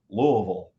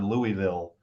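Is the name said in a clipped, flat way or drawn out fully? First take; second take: clipped; full. First: The name is said flat and clipped. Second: The name is said with its full syllables. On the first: The speaker calls it right. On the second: The speaker calls it wrong.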